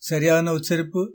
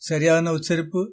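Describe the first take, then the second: Both takes have the same delivery.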